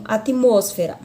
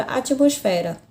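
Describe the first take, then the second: First: ATMOSFERA stressed on MOS, at-MOS-fe-ra; Spanish stress. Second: ATMOSFERA stressed on an open FE; Portuguese stress. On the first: Teacher contrasts the Spanish word, stress on MOS. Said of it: "na língua espanhola eu tenho". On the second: Teacher gives the Portuguese example, stress on FE. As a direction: lean on FE in ATMOSFERA. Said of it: "na língua portuguesa eu tenho a palavra". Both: Shown as a demonstration.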